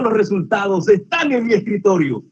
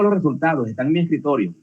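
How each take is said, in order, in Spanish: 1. La voz suena feliz y positiva. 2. La voz suena tranquila e indiferente. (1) "Es algo positivo, es una alegría" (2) "Tranquilo, pero también con indiferencia"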